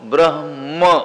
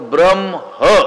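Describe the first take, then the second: First: The h comes first and the word ends in m. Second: The m comes first and the word ends in h. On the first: The speaker calls it right. "शेवटी काय आलं पाहिजे, म" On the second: The speaker calls it wrong. "आपण काय करतो"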